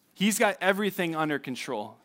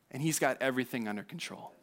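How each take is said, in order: First: Said in the usual way. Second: Much softer, hushed and lower; soft assurance. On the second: Real, not acted. Preacher assuring the congregation, hushed and soft. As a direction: drop it to a near hush. Sermon point, repeated softly.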